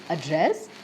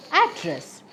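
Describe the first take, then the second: First: "address" stressed on the last syllable, a-DRESS; stress on second syllable. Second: "address" stressed on the first syllable, AD-dress. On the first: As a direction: say "address" slowly, hitting DRESS. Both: Shown as a demonstration. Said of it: "multiple pronunciations".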